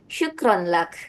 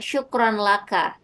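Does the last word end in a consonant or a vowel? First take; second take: consonant; vowel. First: The last word ends on a bare consonant. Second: The last word ends with a final vowel. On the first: The speaker calls it right. "tapi syukran lak" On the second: The speaker calls it wrong. "dia bilangnya tidak syukran laka"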